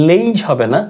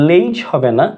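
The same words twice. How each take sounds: No difference in how they are said.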